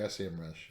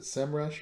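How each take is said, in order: First: S E M rush with each letter named; spelled-out letters. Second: SEMrush said as one word, "sem-rush". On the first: Host offering the other option, S E M rush letter by letter. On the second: Host asking co-host how to say the brand, SEMrush as one word. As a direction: say SEMrush with SEM as a single syllable. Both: Shown as a demonstration. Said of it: "did we finally decide, is it".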